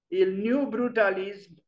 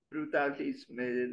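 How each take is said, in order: First: Said in the usual way. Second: Brutalisme read slowly and softer, lingering on the misspelt ending; reading the misspelling. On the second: Shown as a demonstration. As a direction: drag out Brutalisme slowly and quietly, pointing up the extra letters. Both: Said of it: "there is an S there which shouldn't be there".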